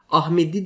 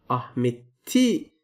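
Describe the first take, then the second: First: The consonant before the last vowel is a d. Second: The consonant before the last vowel is a t. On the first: "okunuş olarak Ahmedi diyebilirsiniz" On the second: "Ahmet'i şeklinde yazmanız lazım"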